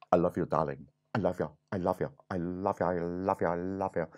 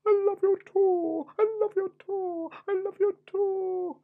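First: Low, lovestruck prince voice; hammed-up doting prince; storybook prince. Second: Very high, sing-song princess falsetto; hammed-up lovestruck princess; storybook princess. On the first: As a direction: woo the princess in a low, repetitive murmur. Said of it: "And the prince says". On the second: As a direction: coo it back in a squeaky high voice. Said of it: "And the princess said".

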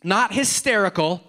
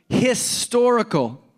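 First: "hysterical" with STER in the middle; contrasting word. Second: "historical" drawn out, with STOR in the middle; slow, higher "historical", leaning on STOR; corrected word. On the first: Preacher ruling out the expected word, saying "hysterical" distinctly. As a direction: say "hysterical" clearly, with an "air" sound after the st. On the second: Preacher correcting the expected word, stressing "historical" slowly. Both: Shown as a demonstration.

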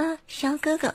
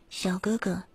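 First: Very high squeaky loli voice. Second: Just a little higher, soft; slightly raised voice. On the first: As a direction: push it way up like a loli. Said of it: "不用这种". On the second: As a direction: lift the pitch only a bit. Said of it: "就直接". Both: Shown as a demonstration.

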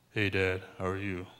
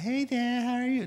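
First: Mock deep voice, a touch lower and softer; deep Esau voice. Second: Much higher, thin little-brother voice; annoying Jacob voice. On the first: Esau greets his dad, lightly lowered mock deep voice. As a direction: lightly play the gruff older brother greeting his father. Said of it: "He probably talked deep". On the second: Retold or imitated. Jacob greets his father in a high, annoying mock voice. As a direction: pitch it way up to sound whiny and annoying. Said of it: "The annoying voice".

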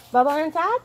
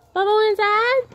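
First: Raised, rising call to the cat; coaxing the cat. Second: Much higher, louder squeaky call to the cat; sing-song pet voice, rising up high; high pet talk. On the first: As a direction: ask the cat sweetly with a rise. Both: Real, not acted. Coaxing cat to come inside.

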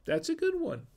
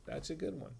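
First: "That's a good one" squeaked up high; high-pitched praise. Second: Quiet repeat. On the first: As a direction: pitch way up in delight. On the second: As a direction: murmur it again under breath. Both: Real, not acted.

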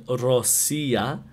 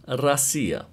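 First: Россия said as written, "ro-SI-ya"; spelling pronunciation. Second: Россия said "ra-SI-ya"; actual pronunciation. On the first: Teacher reads the written form, Россия with full O. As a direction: keep a clear "oh" in the first syllable of Россия. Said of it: "So it's written Россия". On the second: Teacher corrects the written form, Россия with A sound. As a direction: turn the O of Россия into "ah". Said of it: "but it's pronounced Россия". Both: Shown as a demonstration.

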